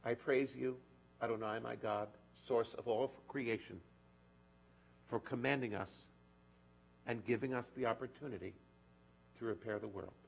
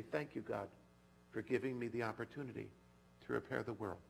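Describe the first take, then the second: First: Measured, solemn blessing, softening at the end; blessing recitation. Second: Prayer. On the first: Acted. Rabbi reciting a blessing for the congregation, measured and solemn. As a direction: intone the blessing gently. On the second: Shown as a demonstration.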